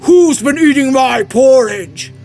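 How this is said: It is said in a great big voice. "said with a great big voice"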